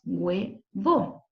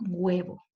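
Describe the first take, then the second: First: "huevo" in two separate syllables, hue, then vo; split into syllables. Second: Said in the usual way. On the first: Shown as a demonstration. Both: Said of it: "La palabra huevo tiene dos sílabas".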